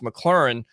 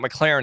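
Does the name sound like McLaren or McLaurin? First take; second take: McLaurin; McLaren. First: The name is said like McLaurin. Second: The name is said like McLaren. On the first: The speaker calls it right. "it's McLaurin" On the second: The speaker calls it wrong. "it's not McLaren"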